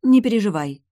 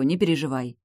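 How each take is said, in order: First: Не переживай, higher and louder, brushing it aside; waving it off. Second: Calm her kindly; smiling reassurance. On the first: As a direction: dismiss her worry breezily. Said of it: "отмахнулась я". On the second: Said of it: "улыбнулась я". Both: Acted.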